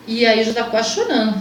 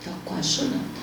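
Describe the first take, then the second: First: Said in the usual way. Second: Hushed whisper, almost breaking. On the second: Real, not acted. To the host, reliving the mirror moment, whispering. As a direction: let it fall to a whisper as the memory hits. Repeats that she nearly cried.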